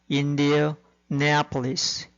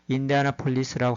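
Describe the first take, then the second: First: It is articulated clearly with precise pronunciation. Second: It is read roughly, following the spelling. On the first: The speaker calls it right. "명확하게" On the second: The speaker calls it wrong. "대충 이렇게 철자를 보면서"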